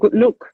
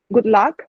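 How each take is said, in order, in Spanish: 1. Se dice con un acento inglés del norte. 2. Se dice con un acento inglés del sur.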